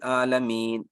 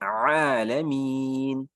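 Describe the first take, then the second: First: The word starts without the throat consonant ain. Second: The word starts with a clear throat consonant ain. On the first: The speaker calls it wrong. "गलत हो जाता है" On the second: The speaker calls it right. "आइन निकालेंगे"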